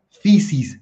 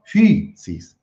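First: Fisis said the usual Spanish way, plain i; wrong pronunciation. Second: Fisis, first vowel rounded like French u; right pronunciation. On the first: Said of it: "no se pronuncia". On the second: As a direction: fisis drawn out, Greek style. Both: Shown as a demonstration.

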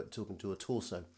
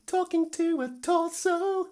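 First: Said in the usual way. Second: Very high, slow, squeaky joke voice; squeaky silly voice. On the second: Pretend. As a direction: squeak it out like a cartoon. Jokey repeat of own remark.

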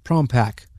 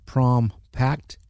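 First: "Pack" said with no t at the end; "Prom Pack" said cleanly, ending on "Pack"; corrected title. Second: "Pact" said with a hard final t, slowly; "Prom Pact" drawn out, ending on "Pact"; mispronounced title. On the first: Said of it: "but Pack". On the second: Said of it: "Not Pact, but Pack". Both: Real, not acted.

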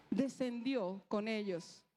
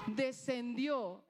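First: Slow, weighty descendió; slow emphasis. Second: Descendió stretched out, very slow; very slow emphasis. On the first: Preacher stressing Jesus went down, slowly. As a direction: lean on descendió, drawn out. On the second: Preacher repeating the word, very slowly. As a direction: let descendió sink in slowly. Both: Shown as a demonstration.

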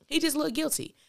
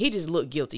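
First: "guilty" said high and pointed; corrected, pitched up. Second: Said in the usual way. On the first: Real, not acted. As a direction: lift "He just looked guilty" in a knowing correction. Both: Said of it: "excuse me".

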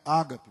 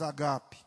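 First: "ágape" with stress on the first syllable. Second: "agape" with stress on the middle syllable, a-GA-pe. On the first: Pastor explaining the Greek, "ágape" stressed on Á. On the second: Pastor explaining the Greek, "agape" stressed on GA. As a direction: say "agape" with GA strong. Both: Shown as a demonstration. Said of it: "Não é ágape, mas agape".

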